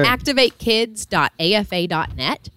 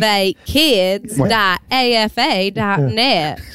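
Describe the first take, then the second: First: It is said in his plain accent. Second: It is said in a Southern Kentucky accent.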